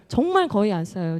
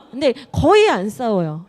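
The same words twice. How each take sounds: First: 정말 stressed, 거의 said level. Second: 거의 punched loud; stress on 거의. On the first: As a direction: hit 정말 for sincerity. (정말에 강세) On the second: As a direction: lean hard on 거의 to insist. (거의에 힘주어) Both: Real, not acted. Insisting they rarely fight.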